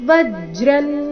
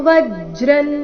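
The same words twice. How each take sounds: No difference in how they are said.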